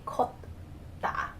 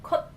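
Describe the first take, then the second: First: "kotta" with a voiced D closing the first syllable; D sound at syllable end. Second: "kotta" with a crisp T closing the first syllable; T sound at syllable end. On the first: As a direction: split "kotta" after a D-like stop. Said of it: "you wouldn't say kotta". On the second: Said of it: "you would use the T sound". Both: Shown as a demonstration.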